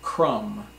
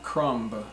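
First: The word ends with no B sound. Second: The word ends with a pronounced B sound. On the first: The speaker calls it right. "but crumb" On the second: The speaker calls it wrong. "It is not crumb"

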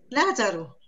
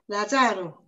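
First: The stress is on the first syllable. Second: The stress is on the second syllable. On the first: The word is written with an accent mark. The speaker calls it right. "Eso suena fuerte las primeras sílabas" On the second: The word is written without an accent mark. The speaker calls it wrong. "si no, tuviera acento, ... cualquiera que lo leería diría"

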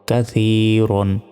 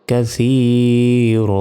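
First: The word ends with an n sound. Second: The word ends on a bare vowel. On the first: The reading continues without stopping. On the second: The reader stops on this word.

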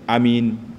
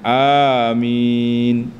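First: The first vowel is kept short. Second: The first vowel is drawn out long. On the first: "baca pendek amin" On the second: "kita panjang amin"

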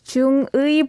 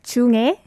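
First: The second syllable has the vowel 'ui'. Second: The second syllable has the vowel 'e'. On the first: This is the strict, careful reading. "If you want to be really strict about it, ui" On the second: This is how most people say it naturally. "like 중에. ... it's way more easy"

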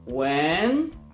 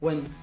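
First: The pitch rises like a question. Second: The syllable is said without any tone. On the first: "Ton głosu idzie do góry" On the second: "sylaba bez tonu"

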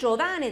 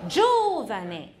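First: The stress is on a later syllable. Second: The stress is on the first syllable. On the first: "如果念Giovane 的话，我就把那个重音符号我会放在R 的上面。" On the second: "重音在第一个。"

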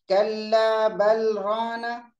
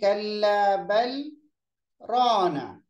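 First: The words run on with no stop before rana. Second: The voice stops briefly, breath held, before rana. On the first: The speaker calls it wrong. "गलत है।" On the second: The speaker calls it right. "मतलब मैंने आवाज को तो रोक दिया, सांस को भी रोका, लेकिन सांस को छोड़ा नहीं"

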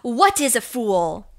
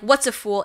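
First: 'What is' is said as two clear, separate words. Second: 'What is' is run together into one short word. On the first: "I like the way she enunciated that too" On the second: "it's not like"

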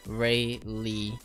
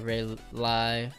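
First: The second syllable rhymes with see. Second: The second syllable rhymes with high. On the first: The speaker calls it right. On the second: The speaker calls it wrong.

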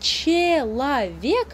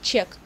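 First: The word is said in full, three syllables. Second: The word is shortened to one syllable. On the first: "слово «человек»" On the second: "иногда мы говорим просто «чек»"

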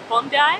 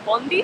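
First: The name is said the Australian way. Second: The name is said the American way. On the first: The speaker calls it right. "So it's Bondi" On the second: The speaker calls it wrong. "not Bondi, as the Americans like to say"

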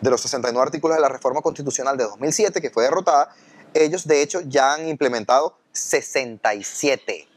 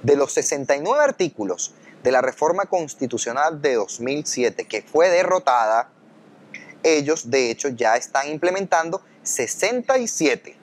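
First: It is said at a normal speed. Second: It is said more slowly.

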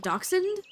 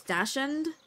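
First: It uses the standard pronunciation. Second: It uses a spelling-based pronunciation. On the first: The speaker calls it right. "It's called a dachshund" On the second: The speaker calls it wrong. "I used to read it as dachshund in my head"

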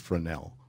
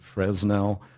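First: The S in the middle is silent. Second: The S in the middle is pronounced. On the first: The speaker calls it right. "The accepted pronunciation, French pronunciation, is Fresnel. Forget about the S" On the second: The speaker calls it wrong. "We've heard Fresnel"

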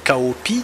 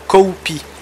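First: The name is said with French pronunciation. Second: The name is said with English pronunciation. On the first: "nous en français c'est Cao Pi" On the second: "eux, ils l'ont prononcé Cao Pi"

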